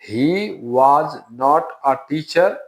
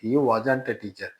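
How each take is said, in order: First: 'Was not' is said as two full words. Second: 'Was not' is contracted into one word. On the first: The form used in written English. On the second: The form used in spoken English.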